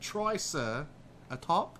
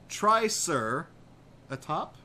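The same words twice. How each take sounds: First: It is said in a fake Cockney accent. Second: It is said in his normal voice.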